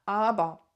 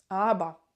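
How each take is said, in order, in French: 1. Le mot finit par un 'ah' ouvert. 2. Le mot finit par un 'ah' ouvert.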